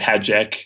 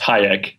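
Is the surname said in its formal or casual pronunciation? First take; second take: casual; formal. First: The surname is given a casual, everyday pronunciation. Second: The surname is given its formal, original pronunciation. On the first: This is the easier version used day to day. "I just say Hajek" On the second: This is the pronunciation the family insists on. "technically, it is pronounced Hayek"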